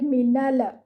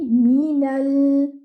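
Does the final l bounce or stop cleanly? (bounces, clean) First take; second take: bounces; clean. First: The final l bounces with an added vowel. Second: The final l stops cleanly without bouncing. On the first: The speaker calls it wrong. "your lam shouldn't bounce. Don't read it like minala" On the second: The speaker calls it right. "No, it should be minal"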